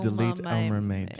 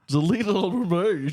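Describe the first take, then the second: First: It is said in the speaker's normal voice. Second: It is said in a put-on accent.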